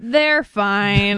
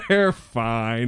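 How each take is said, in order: First: Dismissive breezy catchphrase. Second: Lightly mocking imitation; imitating her catchphrase. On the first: Retold or imitated. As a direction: brush it off lightly. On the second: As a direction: echo it back teasingly. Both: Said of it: "she says this one thing".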